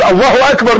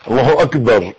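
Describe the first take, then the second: First: الله اكبر with a clear doubled L and every letter shaped by the mouth; clear takbir from the mouth. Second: الله اكبر said through the nose, mumbled and low; nasal takbir. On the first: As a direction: say الله اكبر crisply with tongue and lips. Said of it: "انا عايز". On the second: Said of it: "دي من مناخيرك مش من بقك". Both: Shown as a demonstration.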